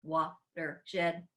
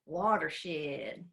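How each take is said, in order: First: Lightly done robot voice, even and mechanical. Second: A light Southern country accent on Watershed, drawn out. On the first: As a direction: say it like a half-hearted robot. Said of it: "Let's say it like a robot". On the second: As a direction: say Watershed like a Tennessee country girl. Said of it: "Let's say it with a country accent". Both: Shown as a demonstration.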